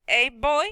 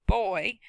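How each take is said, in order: First: Put-on boy stretched silkily into two syllables; silky drawn-out boy. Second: Put-on boy stretched out to two syllables, silky. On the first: Woman taunts the boy, boy drawn out silkily. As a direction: draw out boy long and smooth, with a hint of an accent. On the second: A narrator's reading. Narrator echoes how the woman said boy, drawn out silkily. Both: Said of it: "silky and stretched out to two syllables".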